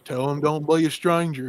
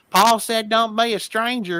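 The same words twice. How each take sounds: First: Lightly imitated backwoods Southern farmer; a hint of folksy Southern dad in the background; Southern country accent. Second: High, slow Southern holler; Southern country accent. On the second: Retold or imitated. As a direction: relay it in a drawn-out backwoods Southern twang. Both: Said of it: "why do they sound like that".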